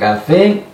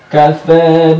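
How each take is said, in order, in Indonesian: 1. Vokal akhirnya 'e' yang penuh. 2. Vokal akhirnya ada di antara 'a' dan 'e'. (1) "bukan kafe" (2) "tapi kafa binaf pakai e"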